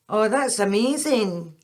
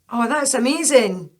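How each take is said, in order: First: It sounds sarcastic and insincere. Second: It sounds sincere and genuinely pleased.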